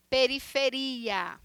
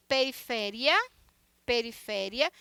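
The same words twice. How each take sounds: First: Slow "periferia" stressed on RI; Portuguese stress on RI. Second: "periferia" stressed on FE, short -ria; Spanish stress on FE. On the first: Teacher showing Portuguese, "periferia" slowly stressed on RI. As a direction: stretch RI in "periferia". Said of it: "em português". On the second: Teacher contrasting with Portuguese, "periferia" stressed on FE. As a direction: hit FE in "periferia". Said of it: "periferia em português". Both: Shown as a demonstration.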